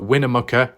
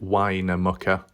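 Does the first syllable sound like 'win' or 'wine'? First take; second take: win; wine. First: The first syllable sounds like 'win'. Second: The first syllable sounds like 'wine'. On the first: The speaker calls it right. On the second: The speaker calls it wrong.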